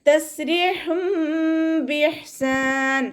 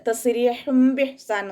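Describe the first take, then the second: First: "തസ്രീഹും ബിഇഹ്സാൻ" chanted high and slow with the sukoon on "ഹ്" held clear; correct recitation. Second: "തസ്രീഹും ബിഇഹ്സാൻ" said quickly in speaking voice as the mistake; wrong way. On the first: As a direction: model the right reading of "തസ്രീഹും ബിഇഹ്സാൻ" in tajweed. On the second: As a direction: show the incorrect reading of "തസ്രീഹും ബിഇഹ്സാൻ". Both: Shown as a demonstration. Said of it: "ഓതരുത്".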